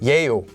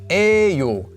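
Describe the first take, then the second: First: It begins with a ye sound. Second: It begins with a plain e sound. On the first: This is the official standard form. "it's supposed to be pronounced as 예요" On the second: This is how people normally say it. "is actually pronounced as 에요"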